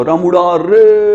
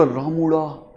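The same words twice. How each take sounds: First: "रामुड़ा रे" with "रे" held long and level; calling from afar. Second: "रामुड़ा" softer, falling away on a long last vowel; village nickname call. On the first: Calling an old friend in the distance, "रामुड़ा रे" drawn out. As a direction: call out slowly, stretching the final "रे". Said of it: "तो अब उसको आवाज लगानी है". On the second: Teacher showing a friend's village nickname, "रामुड़ा" falling softly. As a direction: let "रामुड़ा" trail down softly. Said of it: "फिर ऐसे लगा". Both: Shown as a demonstration.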